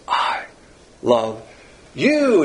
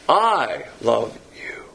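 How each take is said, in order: First: The stress is on you, said loudly. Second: The stress is on I, with you barely whispered. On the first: The loved one is very attractive to the lover. "All the emphasis is on the object" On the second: The love comes from the lover's character, not the loved one's appeal. "It's on the integrity of the subject"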